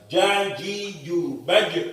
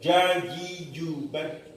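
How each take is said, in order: First: The final echo comes quickly and cleanly. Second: The final echo is dropped entirely. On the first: The speaker calls it right. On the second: The speaker calls it wrong. "Pantulannya hilang karena terlalu apa namanya terlalu hati-hati"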